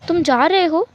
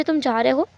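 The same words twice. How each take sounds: First: Higher, louder, rising question; startled question. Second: Said in the usual way. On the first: Acted. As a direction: ask it in sudden alarm, voice jumping up. Wing asks whether he is leaving. (चौंककर ऊँची आवाज़ में सवाल)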